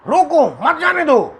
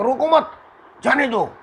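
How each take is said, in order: First: The pause comes after 'roko', meaning stop. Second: The pause comes after 'mat', meaning let go.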